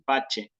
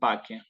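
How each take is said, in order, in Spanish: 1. La c se pronuncia como ch. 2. La c se pronuncia como k. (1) "la italiana en la cual aparece así" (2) "en la clásica va a ser"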